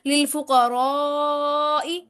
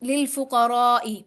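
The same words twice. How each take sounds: First: The vowel before the ending is drawn out. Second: The vowel before the ending is short. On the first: The speaker calls it right. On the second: The speaker calls it wrong.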